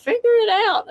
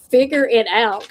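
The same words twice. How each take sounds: First: High-pitched, imitated self-scolding; fussing at oneself. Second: Restrained fussing at oneself, usual pitch; retold self-scolding. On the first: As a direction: act out fussing at yourself, pitch shooting up. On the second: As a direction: retell a mild scolding of yourself. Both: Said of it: "I was fussing at myself".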